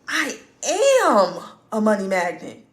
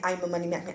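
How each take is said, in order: First: It is said with strong, heartfelt feeling. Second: It is said flatly, without any feeling. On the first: The speaker truly feels and believes it. The speaker calls it right. "Do you see how that feels?" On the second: The speaker does not really believe it. The speaker calls it wrong. "There's no feeling in that at all"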